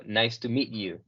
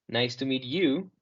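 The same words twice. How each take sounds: First: "Nice to meet you" with "meet you" run together as one word; linked meet you. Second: "Nice to meet you" with meet and you kept apart; separated words. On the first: Teacher showing the right way, "meet you" linked into one word. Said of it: "como si meet you fuera una sola palabra". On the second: Teacher showing the wrong way, "Nice to meet you" split up. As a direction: say "Nice to meet you" word by word, not linked. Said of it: "no decir". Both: Shown as a demonstration.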